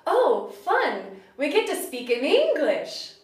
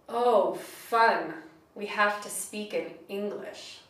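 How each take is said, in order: First: It is said with pure delight. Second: It is said with sarcasm.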